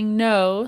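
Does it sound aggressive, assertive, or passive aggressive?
assertive. It sounds clear and assertive.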